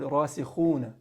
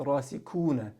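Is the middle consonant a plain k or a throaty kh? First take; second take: throaty kh; plain k. First: The middle consonant is a rough throat sound. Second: The middle consonant is a plain English k. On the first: The speaker calls it right. "if they're pronouncing the word rasikhuna" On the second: The speaker calls it wrong. "they'll say rasikuna, because kha doesn't ex- exist in the English language"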